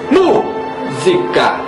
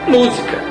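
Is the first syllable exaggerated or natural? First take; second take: exaggerated; natural. First: The first syllable is hit with exaggerated force. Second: The first syllable is stressed with natural force. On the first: The speaker calls it wrong. "não dizemos música, só por ser acentuada a sílaba mu" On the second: The speaker calls it right. "pronunciamos naturalmente música"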